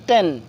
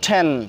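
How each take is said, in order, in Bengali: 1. t আনঅ্যাসপিরেটেড, Bangla ট-এর মতো। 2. t aspirated, Bangla ঠ-এর মতো। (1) "আগে পড়ছিলাম টেন" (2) "এখন থেকে সেসব জায়গায় উচ্চারণ করব টেন"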